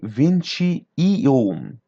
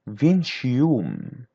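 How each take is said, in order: First: The words are said separately with breaks. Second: The words run together without breaks. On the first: The speaker calls it wrong. "don't separate the numbers. Don't say vinte e um" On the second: The speaker calls it right. "Try to connect between them. So it'd be like that"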